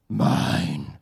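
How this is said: The word is said in a menacing, evil voice. The speaker calls it wrong. "That God sounded evil with that voice"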